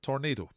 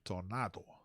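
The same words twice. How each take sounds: First: The word is said with an English pronunciation. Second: The word is said with a Spanish pronunciation. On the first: "if you like" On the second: "Proper Spanish pronunciation"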